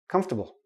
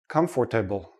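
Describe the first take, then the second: First: The word is said with three syllables. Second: The word is said with four full syllables. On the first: The speaker calls it right. "We say comf, ta, bull" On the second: The speaker calls it wrong. "I've heard many students say comfortable"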